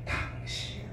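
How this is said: The word is said with soft, gentle intonation. The speaker is addressing the listener with affection. The speaker calls it right. "억양을 부드럽게"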